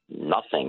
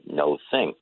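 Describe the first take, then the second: First: The first syllable sounds like 'nuh'. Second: The first syllable sounds like 'no'. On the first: "for some reason we say nothing" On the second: "instead of no thing"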